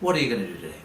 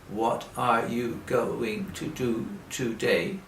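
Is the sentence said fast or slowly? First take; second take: fast; slowly. First: It is said fast, words run together. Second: It is said slowly, word by word.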